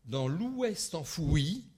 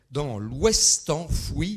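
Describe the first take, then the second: First: "l'ouest enfoui" said slowly, ou-est and en-fou-i with the vowels split; slow, "ouest" as ou-est, "enfoui" as en-fou-i; diérèse reading. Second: "l'ouest enfoui" said slowly and louder, ouest and enfoui each in one syllable; slow, louder, "ouest" and "enfoui" contracted; synérèse reading. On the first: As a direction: read "l'ouest enfoui" drawn out, every vowel given its own beat. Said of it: "j'ai fait deux fois, cette fois-ci, la diérèse".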